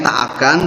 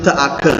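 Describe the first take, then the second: First: It is said as two separate words. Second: It is merged into one reduced word. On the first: "kalau bahasa Indonesia tak akan" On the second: "kalau dimelayukan itu teaken"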